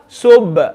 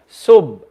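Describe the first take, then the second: First: The final consonant is released with an echoing bounce. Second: The final consonant is held with no audible release. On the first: The speaker calls it right. "I'm literally echoing out the sound" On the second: The speaker calls it wrong. "No sound is coming out"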